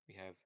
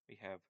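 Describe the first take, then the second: Both takes have the same delivery.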